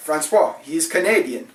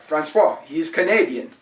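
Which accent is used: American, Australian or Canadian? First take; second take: Canadian; Canadian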